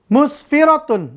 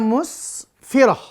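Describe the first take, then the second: First: The word ends with a full -tun syllable. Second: The word ends with a soft h sound.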